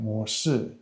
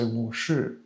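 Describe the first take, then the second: First: The 'shi' is soft, without a curled tongue. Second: The 'shi' is said with a curled tongue. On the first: The speaker is from Taiwan. "the shi is very soft in the Taiwanese accent" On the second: The speaker is from mainland China. "it's more like a curl tongue"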